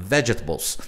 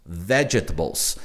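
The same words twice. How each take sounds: First: "vegetables" run together quickly, low. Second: "vegetables" slow, low and soft; slow teacher's "vegetables", dropped low; careful pronunciation demo. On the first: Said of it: "Você fala bem rapidinho". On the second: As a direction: sound out "vegetables" slowly for learners. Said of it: "você vai pronunciar ela assim". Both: Shown as a demonstration.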